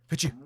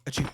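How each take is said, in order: First: Loud sharp sneeze; harsh sneeze. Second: Proper sneeze. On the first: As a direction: sneeze that hurts the ear. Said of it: "that was supposed to be a lot less painful for you". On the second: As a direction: sneeze it the gentle way. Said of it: "That's what it was supposed to be like". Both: Real, not acted.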